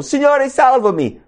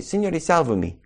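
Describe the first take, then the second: First: High, urgent shout for rescue; acted desperate scream for saving; Peter's cry. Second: Said in the usual way. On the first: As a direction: cry out for help in panic. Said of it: "Pietro grida dicendo". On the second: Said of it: "ma grida al Signore".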